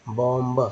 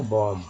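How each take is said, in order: First: बॉम्ब with an audible ब at the end; sounded final b. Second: बॉम्ब ending on m, ब silent. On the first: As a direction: release the last b in बॉम्ब. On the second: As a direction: drop the final b from बॉम्ब. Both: Shown as a demonstration. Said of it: "ब जब बोलते हैं तो उच्चारण गलत".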